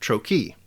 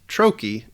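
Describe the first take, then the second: First: The stress is on the second syllable. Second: The stress is on the first syllable. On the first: The speaker calls it wrong. "not trochee" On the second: The speaker calls it right. "the first syllable of the word is stressed"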